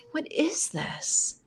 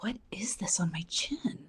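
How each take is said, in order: First: Higher, slow, drawn-out disbelief; appalled disbelief. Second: Softer, whispered self-questioning; hushed puzzlement. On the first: Woman discovering a hair on her chin, slow appalled disbelief. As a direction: stretch it out high and soft, mock horror. Repeats the question, more appalled. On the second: Woman feeling her chin in the car, hushed puzzled whisper. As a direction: whisper it to yourself, retold discovery. Acts out finding a chin hair. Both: Retold or imitated.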